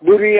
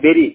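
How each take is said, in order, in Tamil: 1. முதல் உயிரெழுத்து 'put' என்பதிலுள்ள 'u' போல ஒலிக்கும். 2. முதல் உயிரெழுத்து 'berry' என்பதிலுள்ள 'e' போல ஒலிக்கும். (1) "பரி புரி அந்த மாதிரி ப்ரொனன்சியேஷன் பண்ணுவாங்க, ஆனா கிடையாது" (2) "பெரி, BURY, பெரி"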